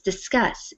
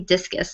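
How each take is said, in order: First: It sounds like the verb discuss. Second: It sounds like the thrown sports object, discus. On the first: The speaker calls it right. "But it's discuss" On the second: The speaker calls it wrong. "In my head I say discus"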